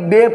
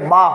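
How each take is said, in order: First: The letter name ends in an 'e' vowel. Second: The letter name ends in an 'a' vowel. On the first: It is read in the Urdu manner. The speaker calls it wrong. "इसको हम पुराने लोग अली बे पढ़ते थे" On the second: It is read in the Arabic manner. The speaker calls it right. "सही उच्चार उसका ये है बा"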